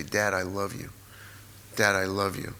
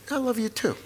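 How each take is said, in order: First: Low, soft declaration of love; quiet, earnest and low; sincere affection. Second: High-pitched, offhand answer; mock dad brushing off affection; imitated dad's reply. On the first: Retold or imitated. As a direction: say it tenderly to a father. Retold telling father of love. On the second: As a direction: toss it back lightly, pitched way up.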